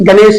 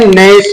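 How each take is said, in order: First: The word begins with a G sound. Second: The word begins with an N sound. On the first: The speaker calls it wrong. "गणेश नहीं पढ़ेंगे" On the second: The speaker calls it right. "जी silent पढ़ेंगे"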